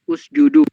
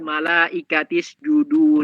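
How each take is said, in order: First: The initial vowel is pronounced at the start. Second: The initial vowel is dropped, linked to the previous word. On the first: The word stands at the start of speech. "Tapi kalau di awal usjudu baca" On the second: The word is joined to what comes before. "itu kan usjudu nggak dibaca kan kalau disambung"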